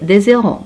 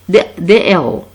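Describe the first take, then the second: First: A z sound links the two words. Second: No z sound links the two words. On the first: It sounds like the word for the number zero. The speaker calls it wrong. "Lorsqu'on dit des, des zéros, non" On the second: It means heroes. The speaker calls it right. "Ici H sans liaison"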